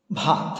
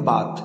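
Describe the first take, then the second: First: Said in the usual way. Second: বাত with a plain unaspirated b; dialect deaspiration. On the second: Shown as a demonstration. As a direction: say ভাত as বাত, dropping the breath. (মহাপ্রাণ বাদ দিয়ে বাত) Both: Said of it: "অনেকে উচ্চারণ করে বাত".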